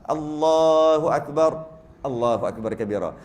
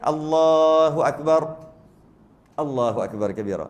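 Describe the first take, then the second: First: There is a brief pause in the middle. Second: There is a longer pause in the middle.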